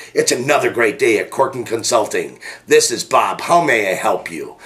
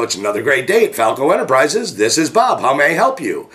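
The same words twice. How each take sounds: First: Friendly phone greeting with a smile in the voice; smile through the phone. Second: Happy phone greeting. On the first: Shown as a demonstration. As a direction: let them hear the smile. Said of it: "I want you to feel the smile coming through the phone". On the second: Acted. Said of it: "so much energy to answer the phone in such a happy mood".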